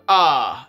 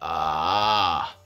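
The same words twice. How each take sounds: First: It starts with a clean, sharp glottal attack. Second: It starts with a creaky, crackling vocal fry. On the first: "a glottal onset, like a muscle bass" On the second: "a vocal fry onset"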